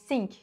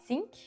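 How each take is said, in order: First: It starts with a sound between th and s. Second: It starts with a clear th sound. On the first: "It's kind of in between" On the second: "It's not exactly a think"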